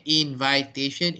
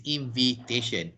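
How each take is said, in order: First: "invitation" as in-VAI-tation; long I in the second syllable of "invitation"; wrong pronunciation. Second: "invitation" as in-vi-tation; short i in the second syllable of "invitation"; correct pronunciation. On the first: Teacher warning what not to say, long-I pronunciation. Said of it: "don't say invitation". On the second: Teacher correcting the mistake, short-i pronunciation. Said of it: "it is invitation". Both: Shown as a demonstration.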